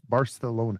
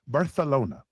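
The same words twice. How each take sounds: First: It is said in a plain English accent. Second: It is said in a local-sounding accent.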